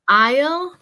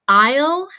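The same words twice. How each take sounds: Both takes have the same delivery.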